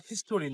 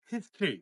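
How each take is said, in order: First: "হিস্টোরি" with three syllables, his-TO-ree; common mispronunciation. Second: "হিস্ট্রি" as two syllables, HIS-tree; no vowel between t and r in "হিস্ট্রি"; correct pronunciation. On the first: Teacher repeats what to avoid, "হিস্টোরি" mispronounced as his-to-ree. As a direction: sound out the o in "হিস্টোরি". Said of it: "হিস্টোরি না". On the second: Teacher repeats the word, "হিস্ট্রি" correctly as HIS-tree. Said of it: "ওয়ার্ডটা হবে". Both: Shown as a demonstration.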